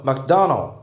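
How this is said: It is said with an American English accent. "アメリカだと"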